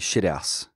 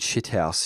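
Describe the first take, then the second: First: The T sounds like a D. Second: The T is pronounced as a clear T. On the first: "sound like a D" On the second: "instead of saying"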